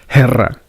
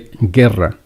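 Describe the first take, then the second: First: It begins with a breathy h-like sound. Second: It begins with a hard g sound. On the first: The speaker calls it wrong. "It doesn't say guerra" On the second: The speaker calls it right. "It say guerra"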